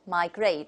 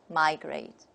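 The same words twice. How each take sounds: First: The stress is on the second syllable. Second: The stress is on the first syllable. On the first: This is the British pronunciation. "the stress is on the second syllable" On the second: This is the American pronunciation. "the American model will just take the opposite"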